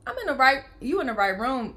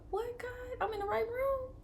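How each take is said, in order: First: Louder, emphatic declaration; proclaiming it with conviction; exclaiming. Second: Much higher, choked with tears; tearful awe. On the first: Mother in the delivery room, louder and emphatic. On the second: Mother overcome in the delivery room, tearful and high. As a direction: near crying, asking God. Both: Real, not acted. Overwhelmed by the scripture sign.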